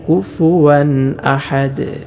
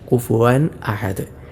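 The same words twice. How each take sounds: First: The middle sound is a clear w. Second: The middle sound is a glottal stop. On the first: The speaker calls it right. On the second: The speaker calls it wrong.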